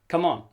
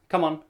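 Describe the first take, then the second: Both takes have the same delivery.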